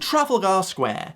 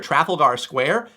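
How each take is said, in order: First: It is said in a British accent. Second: It is said in an American accent. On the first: "I'm here to pronounce it correctly for you" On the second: "you can pronounce it in your American accent like this"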